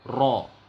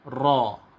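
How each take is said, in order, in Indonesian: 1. Bunyi r digetarkan kuat dengan banyak ketukan. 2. Bunyi r digetarkan kuat dengan banyak ketukan.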